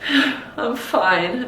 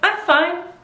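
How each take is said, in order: First: Said in a low, sad tone. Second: Said in a relaxed, content tone. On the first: The speaker is actually unhappy. "obviously you're sad" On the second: The speaker really is all right. "that means you're okay"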